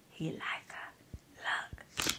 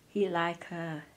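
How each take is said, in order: First: Breathy whisper, voice gone. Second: Softer, lower, a sly aside; low insecurity voice. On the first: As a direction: whisper the doubt into her ear. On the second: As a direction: tempt her quietly with the doubt. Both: Retold or imitated. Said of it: "some just whisper".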